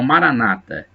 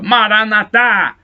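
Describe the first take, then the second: First: The stress falls before the last syllable. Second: The stress falls on the last syllable. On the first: This is how Protestants say it. "Os protestantes falam Maranata" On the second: This is how Catholics say it. "com a tônica na última sílaba"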